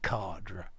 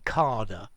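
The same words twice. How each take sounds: First: It is said in the speaker's own way. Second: It is said the common British way. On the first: The speaker calls it right. "I say cadre" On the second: The speaker calls it wrong. "many people say cadre, yeah, British"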